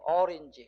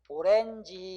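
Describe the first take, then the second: First: It begins with 'eo' and has an 'i' vowel. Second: It begins with 'o' and has an 'e' vowel. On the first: This is the original foreign pronunciation. "실제 발음은 어린지" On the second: This is the established local usage. "그냥 오렌지 이렇게"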